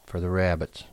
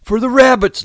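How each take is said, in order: First: Said in the usual way. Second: High, loud joyful shout. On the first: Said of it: "George repeated". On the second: Acted. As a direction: burst out with glee. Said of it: "Lenny shouted".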